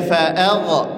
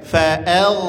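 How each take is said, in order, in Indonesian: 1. Bunyi gh memantul dengan gema tambahan. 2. Bunyi gh mengalir halus tanpa gema. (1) "Dibaca fa'agha, fa'agha, tak boleh" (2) "ngalir aja"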